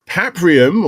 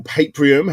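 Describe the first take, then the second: First: Paprium with short a, "PAP-ree-um"; first pronunciation. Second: Paprium with long a, "PAPE-ree-um"; alternative pronunciation. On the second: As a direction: say Paprium with first syllable like "pay". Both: Shown as a demonstration. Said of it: "however you wanna say it".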